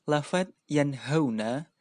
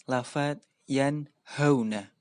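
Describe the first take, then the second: Both takes have the same delivery.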